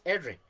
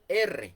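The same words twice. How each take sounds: First: The R sound is weak and swallowed. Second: The R sound is full and strong. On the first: "nos comemos la, la R, decimos R" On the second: "en lugar de decir R"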